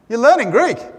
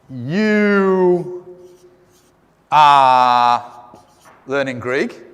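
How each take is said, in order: First: "You are" is shortened into one syllable. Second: "You are" is said as two full words. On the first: The speaker calls it right. "We say" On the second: The speaker calls it wrong. "We don't say"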